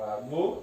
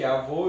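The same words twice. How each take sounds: First: "avô" split into a, then vô; syllable by syllable. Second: Said in the usual way. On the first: Shown as a demonstration. Teacher separates the word, "avô" syllable by syllable. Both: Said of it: "eu separo".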